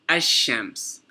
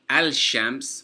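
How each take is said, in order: First: The L is dropped and the 'sh' is doubled. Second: The L sound is pronounced before 'shams'. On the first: The speaker calls it right. "we said ash-shams" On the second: The speaker calls it wrong. "We didn't say al-shams"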